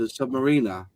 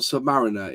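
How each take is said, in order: First: It sounds like 'submarine' with an R added. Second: It does not sound like 'submarine' plus R. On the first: The speaker calls it right. "pronounced submarine with an R at the end" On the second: The speaker calls it wrong. "not Submariner"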